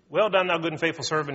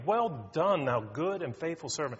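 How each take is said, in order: First: It is said flatly, like a routine. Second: It is said warmly, with deep feeling.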